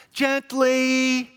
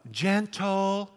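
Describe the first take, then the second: First: Gently said much higher and louder; high pleading gently. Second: Gentle drawn out and stressed. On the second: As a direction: lean on the word Gentle. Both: Shown as a demonstration. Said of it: "you want them to be what?".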